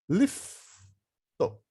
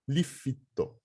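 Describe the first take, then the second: First: The F and T are joined with no vowel. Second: An extra i vowel separates the F and T. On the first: The speaker calls it right. "A gente fala o F e o T separadinhos" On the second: The speaker calls it wrong. "Não fala lifito"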